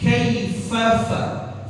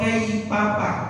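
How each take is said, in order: First: The consonant is a breathy 'f' sound. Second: The consonant is a 'p' sound. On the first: The speaker calls it right. "mengeluarkan angin" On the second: The speaker calls it wrong. "jangan huruf fa itu diganti jadi p"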